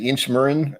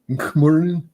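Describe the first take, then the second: First: The ch is a hard sound, as in church. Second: The ch is a throaty sound, as in loch. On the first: It is said this way as a joke. The speaker calls it wrong. "I say Inchmurren as a joke" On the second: This is how Scottish speakers say it. The speaker calls it right. "because the Scottish they don't say ch"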